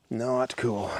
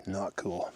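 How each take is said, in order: First: Said in the usual way. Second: Hushed. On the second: Real, not acted. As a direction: murmur "Not cool." under your breath. Repeats phrase, first hushed.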